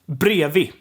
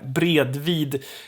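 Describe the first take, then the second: First: The d sounds are left out. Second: Both d sounds are fully pronounced. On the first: The speaker calls it right. "It's brevi" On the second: The speaker calls it wrong. "sounds super weird to to pronounce it like that"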